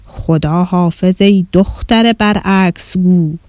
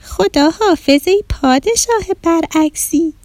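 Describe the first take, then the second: First: Slow, measured royal address; stately king. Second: Put-on high, slow little-girl call. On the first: King greeting the visiting girl backwards, stately. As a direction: pronounce it slowly like a king. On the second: Girl returning the king's backwards greeting, calling out. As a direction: call out to the king in a drawn-out high voice. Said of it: "آدیشه بلند گفت". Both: A narrator's reading.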